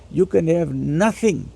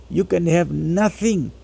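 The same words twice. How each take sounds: The two takes are said the same way.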